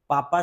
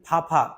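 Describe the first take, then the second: First: It begins with a plain p sound. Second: It begins with a breathy ph sound. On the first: The speaker calls it right. "पापा सही है" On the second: The speaker calls it wrong. "फाफा ऐसे नहीं बोलना"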